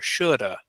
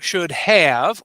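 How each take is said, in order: First: The 'have' shrinks to a single weak vowel. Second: Both words are said fully, with a clear 'have'.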